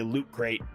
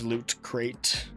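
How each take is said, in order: First: The T sounds are dropped entirely. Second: The T sounds are pronounced clearly. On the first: The speaker calls it wrong. "There are no T's in this word" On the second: The speaker calls it right. "Hard to say that with the proper enunciation"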